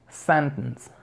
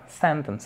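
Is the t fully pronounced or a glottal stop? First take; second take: glottal stop; full t. First: The t is replaced by a glottal stop. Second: The t is fully pronounced. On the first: "Con la parada glotal nos quedaría sentence" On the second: "se puede producir así"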